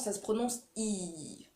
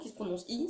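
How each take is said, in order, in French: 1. La voyelle est tenue plus longtemps. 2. La voyelle est tenue brièvement. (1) "C'est I long" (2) "c'est un I court"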